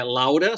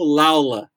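First: Said in the usual way. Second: Laula, with an L sound where the R in Laura goes; says l for r. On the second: Shown as a demonstration. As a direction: say Laula, swapping the R for a clear L. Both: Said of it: "só que troca o R pelo L".

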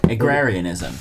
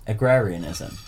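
First: Agrarianism said smoothly as a-GRAR-ee-an-ism; plain pronunciation. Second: Agrarianism with a pause before it; pause, then say agrarianism. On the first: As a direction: say agrarianism cleanly in one go. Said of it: "Jack, say what it is". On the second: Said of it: "But with a pause". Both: Shown as a demonstration.

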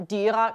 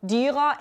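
First: Dyra said as in written bokmål; written form. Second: Dyra said the dialect way, with an open a ending; dialect form. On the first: Teacher showing students the bokmål dyra. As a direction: give the standard written dyra. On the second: Teacher showing students the dialect Dyra. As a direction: demonstrate the spoken dialect Dyra. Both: Shown as a demonstration. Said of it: "endelsen dyra i stedet for dyra".

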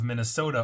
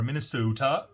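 First: Said in the usual way. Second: Put-on a light, joking take on a Minnesotan accent, with the long drawn O; mock Minnesotan accent. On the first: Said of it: "as they say over there". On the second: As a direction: say Minnesota the way the locals would, half-teasing. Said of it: "That's a horrible accent".

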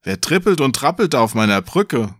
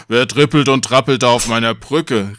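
First: Said in the usual way. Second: Mildly forceful troll challenge; lightly voiced troll, punchy syllables; troll calling out. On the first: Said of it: "jetzt hab ich falsch vorgelesen". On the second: A narrator's reading. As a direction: call it out like a troll. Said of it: "rief der Troll".

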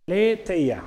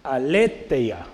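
First: Aletheia with the stressed E drawn out; accent on E. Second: Aletheia read out at half speed; slow reading out. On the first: Preacher correcting how to say Aletheia, accent on the E. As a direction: lean on the E in Aletheia. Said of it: "Con acento en la E". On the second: Preacher reading a written Greek word to the class, slowly. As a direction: sound out Aletheia slowly and carefully. Después la leo. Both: Shown as a demonstration.

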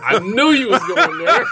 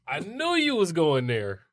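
First: Laughing. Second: Said in the usual way. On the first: Real, not acted. Laughing at friend's joke.

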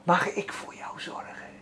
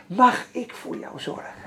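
First: Soft whispered question; tender whisper. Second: Soft whispered question, repeated; tender whisper. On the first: God tenderly asks Peet, whispered. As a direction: whisper it gently like a caring father. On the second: Preacher repeats God's loving offer to the congregation, whispered. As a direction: breathe it out gently, no voice. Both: Retold or imitated. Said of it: "Het klinkt al zo liefelijk".

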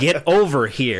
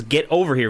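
First: "Get over here" with a mock heavy Asian accent; mock Asian-accented game line; imitating heavy Asian accent. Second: "Get over here," said in clear American English; clearly American. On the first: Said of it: "a really heavy Asian accent". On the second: Shown as a demonstration. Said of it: "very clearly American".

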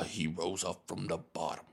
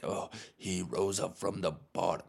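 First: Lightly voiced movie underdog; a hint of put-on gravity, a little softer; mock heroic underdog. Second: Lightly parodied triumphant hero; a hint of put-on movie-hero grandeur; mock an actor's rousing hero line; mock superhero. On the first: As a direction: parody an actor's triumph line. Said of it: "he's like a slave in this movie". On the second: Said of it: "he's like a superhero in the movie".

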